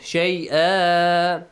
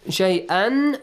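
First: The word ends with a long a vowel. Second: The word ends with an n sound. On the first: The reader stops on this word. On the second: The reading continues without stopping.

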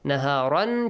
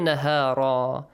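First: The word ends with a final n sound. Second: The word ends with a long a vowel. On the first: "changes to" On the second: "changes to"

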